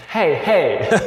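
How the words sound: It is said casually, in a Western-sounding way.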